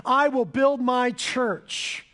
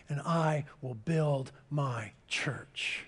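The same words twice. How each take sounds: First: Proclaimed. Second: Slow, hushed whisper, much softer. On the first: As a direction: declare "I will build my church" like a promise from the pulpit. Jesus' promise proclaimed aloud. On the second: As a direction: breathe "I will build my church" like a secret promise. Quiet close of Jesus' quote. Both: Acted.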